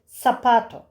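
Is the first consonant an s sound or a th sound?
s sound. The first consonant is a plain s sound. This is how it is said in Latin America. "Latin Amerika'da S sesiyle okunuyor"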